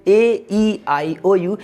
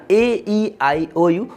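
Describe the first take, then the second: No difference in how they are said.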